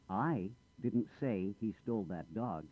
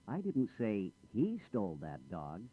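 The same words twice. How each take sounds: First: The stress falls on the word I. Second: The stress falls on the word he. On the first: Someone else said it. "I didn't say anything. Someone else said it" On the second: A different person did it. "I didn't say he did it. I said she or someone else"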